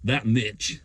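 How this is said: It is said in an American accent.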